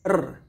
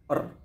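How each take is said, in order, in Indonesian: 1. Bunyi R keluar ke depan dan jelas. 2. Bunyi R tertahan, malu-malu, ke dalam. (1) "ini ke depan suaranya kawan-kawan ya" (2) "kayak agak malu lah atau lebih ke dalam"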